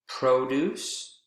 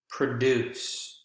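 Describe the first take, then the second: First: The stress is on the first syllable. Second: The stress is on the second syllable. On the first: It is used as a noun. "first syllable is the strongest in nouns" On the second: It is used as a verb. "Second syllable is the strongest in verbs"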